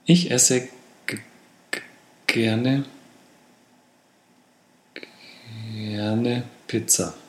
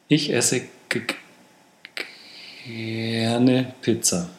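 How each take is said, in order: First: The word is stuttered, then said again after pausing. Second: The stutter is slowed and smoothly eased out mid-word. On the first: "Oder nachbessern" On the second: "Oder mit dem Pullout"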